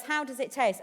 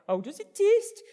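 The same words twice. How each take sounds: First: Said in the usual way. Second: High, loud mock Geordie presenter; hammed-up Geordie host question; Geordie accent. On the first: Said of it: "Ant or Dec, um, says". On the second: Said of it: "Like that. I can't do a Geordie accent".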